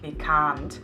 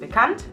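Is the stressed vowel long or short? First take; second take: long; short. First: The stressed a vowel is drawn out long. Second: The stressed a vowel is short. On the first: The speaker calls it wrong. "und nicht bekannt" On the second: The speaker calls it right. "Das ist bekannt"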